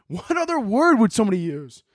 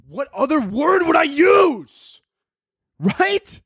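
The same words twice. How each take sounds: First: Said in the usual way. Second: High, drawn-out incredulous yell; outraged shout. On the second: Acted. Comic mocking an article's advice, outraged shouting. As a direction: stretch the question into a shrieked protest.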